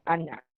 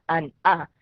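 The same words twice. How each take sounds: First: "Ana" run together as one linked word; sonido de enlace. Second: "an, a" with a break between the syllables; sílabas separadas. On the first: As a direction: carry the n into the final vowel of "Ana". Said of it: "se lee como Ana". ("Ana" enlazado, la n da sonido a la vocal) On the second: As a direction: say "an" then "a", without linking the n. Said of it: "separado esas dos sílabas, sería". ("an, a" separado en dos sílabas, sin enlace) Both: Shown as a demonstration.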